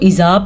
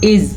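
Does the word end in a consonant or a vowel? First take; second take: vowel; consonant. First: The word ends with an added vowel. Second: The word ends on a silent consonant. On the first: The speaker calls it wrong. "जल्दी से इसको इज़ा पढ़ लेते हैं तो ये गलत है" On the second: The speaker calls it right. "इसे हम पढ़ेंगे इज़"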